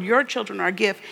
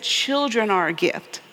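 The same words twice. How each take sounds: First: "Your" picked out as the key word; stress on Your. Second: Put-on "Children" carries the emphasis, with no owner named; stress on Children. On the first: Preacher showing what God did not say, stress on "Your". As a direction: lean on "Your" to single out one family's children. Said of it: "He didn't call out and say". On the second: Preacher correcting to what God did say, stress on "Children". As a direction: put the weight on "Children" to mean all of them. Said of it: "He said". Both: Shown as a demonstration.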